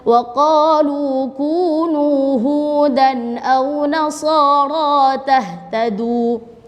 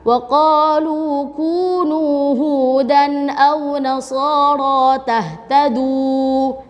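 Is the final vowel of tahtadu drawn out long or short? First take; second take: short; long. First: The final vowel of tahtadu is held short. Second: The final vowel of tahtadu is drawn out long. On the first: The speaker calls it right. "Jadi dua harokat aja" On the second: The speaker calls it wrong. "Jadi sampai tidak oleh bacanya terlalu panjang. ... Tidak boleh ya"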